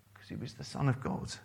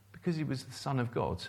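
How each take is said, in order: First: "son" carries the weight, quick and falling; quick line with the weight on "son"; stress on son. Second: "Because" leaned on, the rest falling away, a little fast; quick line with the weight on "Because"; stress on because. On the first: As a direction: lean on "son", keep the rest quick. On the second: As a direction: hit "Because" hard, then let the line fall quickly. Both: Acted. Repeats the answer, shifting stress.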